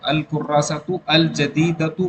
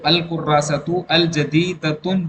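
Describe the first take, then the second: First: The last word ends without an n sound. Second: The last word ends with an n sound. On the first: The speaker calls it right. "बोलिए" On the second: The speaker calls it wrong. "कहना गलत होगा"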